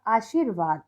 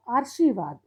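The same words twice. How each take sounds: First: Said in the usual way. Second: आशीर्वाद said as "aar-shee-vaad", r moved forward; misspelt reading. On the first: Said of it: "सही और गलत". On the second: Shown as a demonstration. Teacher reads out the wrong column, आशीर्वाद mispronounced as "aarshivaad". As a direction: put the r before "shee" in आशीर्वाद. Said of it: "अगर हम दूसरा गलत वाला पढ़ेंगे".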